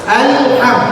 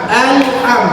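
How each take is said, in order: The two takes are said the same way.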